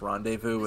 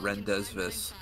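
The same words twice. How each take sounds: First: The word is said with silent final letters. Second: The word is read aloud letter by letter. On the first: The speaker calls it right. "it was pronounced rendezvous" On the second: The speaker calls it wrong. "and not rendezvous"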